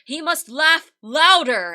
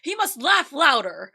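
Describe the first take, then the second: First: It is read plainly, without a smile. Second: It is said smiling, with a laugh.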